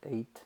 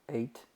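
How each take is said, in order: Both takes have the same delivery.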